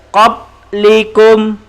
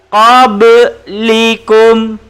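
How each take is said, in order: First: The b sound is cut flat, no bounce. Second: The b sound has a short echoing bounce. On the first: The speaker calls it wrong. "kalau tidak lantun" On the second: The speaker calls it right. "Bacaan yang betul"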